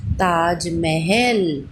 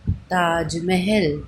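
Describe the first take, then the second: First: Taj Mahal stretched very slowly, syllable by syllable; slowly sounded word. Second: Slow blended word. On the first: Teacher to children, drawing out Taj Mahal very slowly. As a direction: draw out Taj Mahal slowly so children hear each part. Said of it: "तो ये क्या बन गया हमारा". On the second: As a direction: blend Taj Mahal gently and slowly. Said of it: "आप बोल के देखो". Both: Shown as a demonstration.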